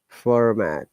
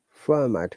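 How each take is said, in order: First: The R after the first vowel is pronounced. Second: The R after the first vowel is silent. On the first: "whereas in American pronunciation" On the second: "in British English, remember, we do not pronounce R"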